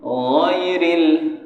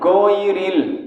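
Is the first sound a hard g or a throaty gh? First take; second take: throaty gh; hard g. First: It begins with a throaty, rasping gh sound. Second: It begins with a plain hard g sound. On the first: The speaker calls it right. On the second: The speaker calls it wrong.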